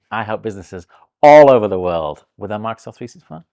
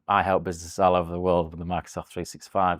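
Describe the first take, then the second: First: It is said in a lively, put-on announcer voice. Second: It is said in a plain, casual talking voice. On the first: The speaker calls it right. "in the right voice" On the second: The speaker calls it wrong. "That was just not good enough"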